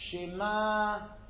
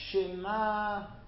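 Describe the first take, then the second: The two takes are said the same way.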